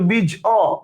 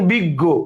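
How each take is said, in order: First: The middle consonant sounds like 'j'. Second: The middle consonant sounds like 'g'. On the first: The speaker calls it wrong. "আপনি কি এর উচ্চারণ বলেন" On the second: The speaker calls it right. "ইয়র উচ্চারণটা ... গ হয়ে যাচ্ছে"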